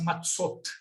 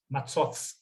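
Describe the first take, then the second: First: The word ends in a t sound. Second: The word ends in a th sound. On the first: This is the modern Hebrew pronunciation. "no hebraico moderno fala assim" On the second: This is the ancient biblical pronunciation. "era um interdental. Como esse seria o T H do inglês"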